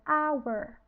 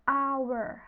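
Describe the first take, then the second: First: The word begins with a vowel sound. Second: The word begins with a vowel sound.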